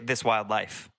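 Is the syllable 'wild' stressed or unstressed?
unstressed. The syllable wild is not stressed.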